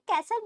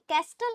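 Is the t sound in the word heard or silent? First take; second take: silent; heard. First: The t sound is silent. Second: The t sound is clearly pronounced. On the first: The speaker calls it right. "इसे कैसल बोलेंगे" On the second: The speaker calls it wrong. "कैस्टल नहीं, टी silent रहेगा"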